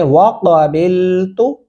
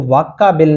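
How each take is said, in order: First: वाक़बिलतु with back-throat Q, drawn out; careful recited वाक़बिलतु, short final तु; correct deep Qaf. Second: वाक़बिल quickly as "vakka-bil"; short, plain-K वाक़बिल, the error; wrong plain K. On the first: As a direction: say Q deep and hold बिल in वाक़बिलतु. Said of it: "कोशिश करें वाक़बिलतु". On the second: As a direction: use an ordinary front K in वाक़बिल, as a mistake. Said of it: "इसको वाक़बिल नहीं पढ़ना". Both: Shown as a demonstration.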